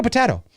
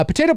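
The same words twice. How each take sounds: First: "potato" as po-TAH-to, higher; alternate "potato". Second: "potato" as po-TAY-to; long "ay" in potato; usual "potato". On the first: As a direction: open "ah" in potato. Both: Shown as a demonstration. Contrasting two pronunciations.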